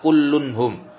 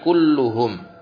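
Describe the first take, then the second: First: An n sound comes before -hum. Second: No n sound comes before -hum. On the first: The speaker calls it wrong. "bukan kullunhum" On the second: The speaker calls it right. "tapi kulluhum"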